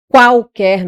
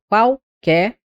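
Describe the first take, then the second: First: "Qualquer" split apart, louder; wrong split. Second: "qualquer" said slowly with vowels glided; slow glide. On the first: Teacher shows wrong split of "Qualquer" to class. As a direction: pull "Qualquer" apart into separate vowels. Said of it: "não, que eu separo". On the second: Teacher shows correct "qualquer" to students. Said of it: "não, que eu separo aqui". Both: Shown as a demonstration.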